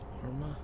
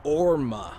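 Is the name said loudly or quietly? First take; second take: quietly; loudly. First: The name is said at a quieter volume. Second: The name is said at a louder volume.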